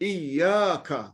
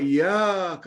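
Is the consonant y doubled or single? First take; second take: doubled; single. First: The y sound is doubled and held. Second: The y sound is single and short. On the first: Only You. The speaker calls it right. "Itu kalau ianya bersabdu" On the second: Sunlight. The speaker calls it wrong. "Tapi bila dibuang sabdunya"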